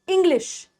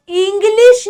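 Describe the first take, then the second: First: इंग्लिश with a brief "ih" at the start; softer इंग्लिश, short opening vowel. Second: इंग्लिश slowed into "eeng-leesh"; इंग्लिश with a long, heavy "ee"; wrong long I. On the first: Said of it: "ई की sound छोटी". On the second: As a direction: stretch the opening vowel of इंग्लिश. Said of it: "आप इंग्लिश नहीं बोलते". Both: Shown as a demonstration.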